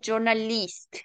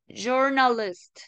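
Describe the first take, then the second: First: The last vowel is a clear i sound. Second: The last vowel is a short central sound. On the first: The speaker calls it wrong. "no es journalist" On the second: The speaker calls it right. "el sonido corto de la I es parecido a la U de guaraní. Por eso es journalist"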